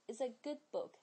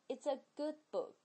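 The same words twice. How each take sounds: The two takes are said the same way.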